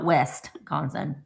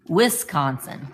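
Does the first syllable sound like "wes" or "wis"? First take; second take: wes; wis. First: The first syllable sounds like "west". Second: The first syllable sounds like "wis". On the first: The speaker calls it wrong. "not Westconsin" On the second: The speaker calls it right. "it's Wis Wisconsin"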